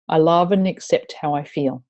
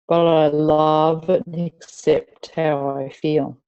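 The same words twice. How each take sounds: First: Said in the usual way. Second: "love and accept" said slowly and evenly; slow acceptance. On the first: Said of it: "we're going to say". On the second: Shown as a demonstration. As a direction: ease into "But I love and accept how I feel" slowly, settling. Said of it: "repeat these after me".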